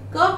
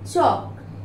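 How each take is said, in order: First: The word begins with a k sound. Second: The word begins with a ch sound. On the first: The speaker calls it wrong. "कक नहीं बोलते हैं" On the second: The speaker calls it right. "चौक बोलते हैं ना"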